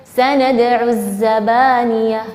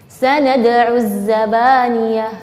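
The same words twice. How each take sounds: No difference in how they are said.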